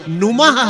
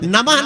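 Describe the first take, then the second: First: The first vowel is a 'u' sound. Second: The first vowel is an 'a' sound. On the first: The speaker calls it right. "ना पे ऊ की मात्रा" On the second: The speaker calls it wrong. "नमः नहीं है वो"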